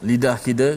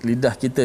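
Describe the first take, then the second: The two takes are said the same way.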